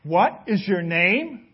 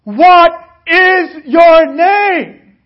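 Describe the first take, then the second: First: Slow, suspicious demand; a slow, pointed question from the king; narrowed stare. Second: Roaring, slow, much higher demand; the king bellows the question at the soldier; louder. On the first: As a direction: ask it slowly, eyes narrowed. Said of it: "became beady-eyed and he looked down". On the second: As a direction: blast the question out like an angry king. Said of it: "got louder and he said". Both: A narrator's reading.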